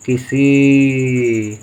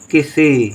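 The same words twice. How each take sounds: First: किसी drawn out very slowly, syllable by syllable; stretched dictation. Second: Said in the usual way. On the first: Shown as a demonstration. Teacher dictating किसी to pupils, drawn out slowly. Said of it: "teacher sounds out word". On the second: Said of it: "teacher spells word".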